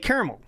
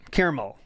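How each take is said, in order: First: The word is said quickly, in a shortened way. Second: The word is said in a careful, full way. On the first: "if I say it quickly" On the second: "I'm a caramel person"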